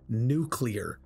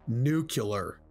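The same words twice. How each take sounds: First: The word is said as nu-clear. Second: The word is said as nu-cu-lar. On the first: The speaker calls it right. "it's pronounced nuclear" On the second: The speaker calls it wrong. "not nuclear"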